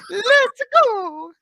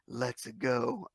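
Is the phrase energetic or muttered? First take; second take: energetic; muttered. First: The phrase is said loudly with lively energy. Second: The phrase is muttered flatly with little energy. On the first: The speaker calls it right. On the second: The speaker calls it wrong.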